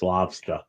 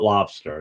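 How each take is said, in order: First: It is said in a Boston accent, ending in 'ah'. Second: It is said in a general American accent. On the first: The speaker calls it right. "that's the New England Boston accent" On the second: The speaker calls it wrong. "it's not lobster"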